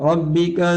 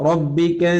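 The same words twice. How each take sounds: No difference in how they are said.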